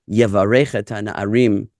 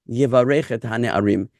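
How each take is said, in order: No difference in how they are said.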